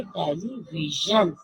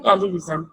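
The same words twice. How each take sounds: First: टेलीविजन slow, with a clear j; right pronunciation. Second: टेलीविजन with z, quick and careless; wrong pronunciation. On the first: Teacher models the correct टेलीविजन for the class. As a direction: say टेलीविजन slowly with a j. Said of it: "इसकी right जो आवाज है". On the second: Teacher imitates kids saying टेलीविजन wrong. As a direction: toss off टेलीविजन with a z. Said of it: "right pronunciation नहीं है". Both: Shown as a demonstration.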